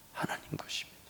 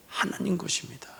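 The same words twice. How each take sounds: First: Whisper. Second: Said in the usual way. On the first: Acted. Repeated line, whispered take.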